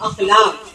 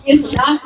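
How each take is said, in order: First: The word begins with an 'a' vowel. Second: The word begins with an 'i' vowel. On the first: The speaker calls it right. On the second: The speaker calls it wrong.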